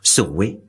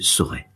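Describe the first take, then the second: First: The last syllable ends in a 'weh' sound. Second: The last syllable ends in an 'eh' sound. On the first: This is how it was said in Ronsard's time. "« Soroué » au lieu de" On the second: This is how it is said today. "au lieu de « sauré »"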